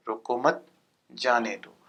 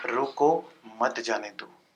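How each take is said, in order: First: "रोको मत" joined and rising, pause, then falling "जाने दो"; pause after मत. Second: Slow "रोको" on its own, then "मत जाने दो" together; pause after रोको. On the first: Teacher shows the let-him-go meaning, pausing after मत. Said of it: "ये जो तरीका है". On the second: Teacher shows the stop-him meaning, pausing after रोको. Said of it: "तो कहने का मतलब कि ये जो बात है". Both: Shown as a demonstration.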